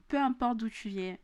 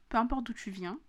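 First: Real southern French twang on "viens"; southern French accent. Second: Said in the usual way. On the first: Real, not acted. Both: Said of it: "pourquoi mon accent du Sud est revenu".

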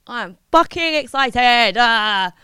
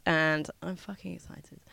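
First: Louder, bursting with excitement; excited outburst. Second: Low, soft, almost under the breath; understated excitement. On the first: Host about to jet off to Thailand, loudly excited. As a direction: let the excitement out loud. Same words again, bursting out. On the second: Host about to jet off to Thailand, quietly excited. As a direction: drop the voice, holding excitement in. Same words quietly, then loudly. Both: Real, not acted.

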